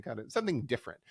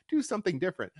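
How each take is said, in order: First: Said in the usual way. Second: "Do" hit high and hard, falling away; emphatic demand. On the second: Shown as a demonstration. Urging the bookers to change it up, emphatic. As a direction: push "Do something different" like a plea to the bookers.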